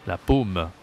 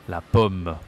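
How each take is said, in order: First: Paume with a closed 'oh' vowel; closed, sharper O. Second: Pomme with an open 'aw' vowel; open, graver O. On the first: Teacher contrasting palm with apple, paume with closed O. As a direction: say La paume as 'la pohm'. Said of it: "O, c'est plus aigu". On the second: Teacher contrasting apple with palm, pomme with open O. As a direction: say la pomme as 'la pawm'. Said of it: "O, c'est plus grave". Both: Shown as a demonstration.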